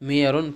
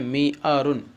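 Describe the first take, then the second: First: A y sound comes before the second vowel. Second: A glottal stop comes before the second vowel. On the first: This is the permitted changed reading. "हमज़ा को या से बदल कर मियारुन पढ़ा जाएगा" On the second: This is the original form of the word. "असल में है मी आरुन"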